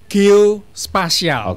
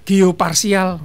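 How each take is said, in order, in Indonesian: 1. Suku kata tengahnya diucapkan 'spa'. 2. Suku kata tengahnya diucapkan 'par'. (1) "Yang benar itu geospasial" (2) "Ada yang bilang geoparsial"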